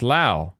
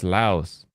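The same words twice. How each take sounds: First: "Lao" ending on the vowel, no S; Lao without S. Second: "Laos" ending in a sounded S. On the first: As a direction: say "Lao" as LAOW, silent S. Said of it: "you don't pronounce the S". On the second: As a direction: say "Laos" as LOUSE with final S. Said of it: "you pronounce the S". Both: Shown as a demonstration.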